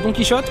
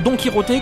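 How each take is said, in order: First: The name is pronounced the French way. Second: The name is pronounced the Spanish way.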